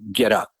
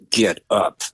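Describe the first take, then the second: First: It is said in a plain, relaxed voice. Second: It is said tightly through gritted teeth.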